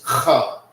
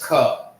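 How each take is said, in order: First: It starts with a raspy kh sound. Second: It starts with a plain k sound. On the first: "K H A A is "ka."" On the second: "K A is "ka,""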